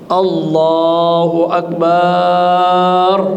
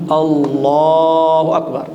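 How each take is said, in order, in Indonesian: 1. Vokal setelah huruf b pada Akbar dipanjangkan. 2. Vokal setelah huruf l pada Allah dipanjangkan. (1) "Begitu pula ba-nya jangan dipanjangkan" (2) "Jadi dia panjangkan di huruf lamnya"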